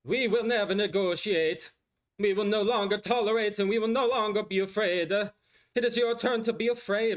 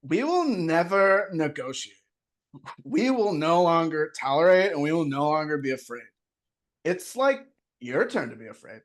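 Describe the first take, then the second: First: A raised, slowed celebrity speech voice, Valley vowels; Kardashian accent impression. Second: Slow California surfer drawl; a slowed, laid-back California take on the speech; surfer-ish Kardashian accent. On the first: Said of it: "with this accent". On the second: Acted. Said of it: "more surfer than Kardashian".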